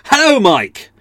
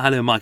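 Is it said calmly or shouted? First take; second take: shouted; calmly. First: It is said loudly, like a shout. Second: It is said calmly, without shouting.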